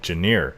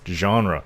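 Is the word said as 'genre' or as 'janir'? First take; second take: janir; genre. First: The word is said as it looks, 'janir'. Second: The word is said in its usual form, 'genre'. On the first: The speaker calls it wrong. "I was pronouncing it wrong for the longest time" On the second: The speaker calls it right. "It's genre"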